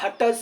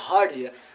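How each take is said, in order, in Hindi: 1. यह शब्द 'hattaj' जैसा सुनाई देता है, दोहरे t के साथ। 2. यह शब्द 'hertz' जैसा सुनाई देता है, r की आवाज़ के साथ। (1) "हट्टज हट्टज सब बहुत बच्चा करता है इसको" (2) "इसको हर्ट्ज कहते हैं"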